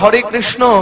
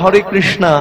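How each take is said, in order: First: It is said the way Bengalis say it. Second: It is said the way foreigners say it. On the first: This is how locals say it. "আমরা যেমন বলি" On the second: This is how foreigners say it. "ওরা বলে"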